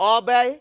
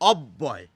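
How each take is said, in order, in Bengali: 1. b ধ্বনিটি একবার উচ্চারিত হয়। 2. b ধ্বনিটি দুবার উচ্চারিত হয়। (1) "তা কিন্তু আমরা বলি না" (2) "সেই জন্য ব দুবার এসে গেছে"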